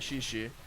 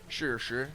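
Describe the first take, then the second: First: Each syllable sounds like English 'she'. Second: Each syllable sounds like English 'sure'. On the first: The speaker calls it wrong. "he's like no it's not she she" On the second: The speaker calls it right. "she is sure sure"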